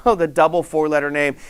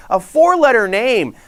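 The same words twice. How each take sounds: First: Chuckling through "oh, the double four-letter name"; laughing. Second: Slow, loud stress on "four-letter"; emphatic. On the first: Real, not acted. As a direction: laugh into "oh" then say it lightly. Laughing at his own joke. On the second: Acted. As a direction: lean hard on "four-letter", drawn out. Teasing a naughty word.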